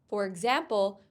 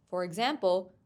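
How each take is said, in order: No difference in how they are said.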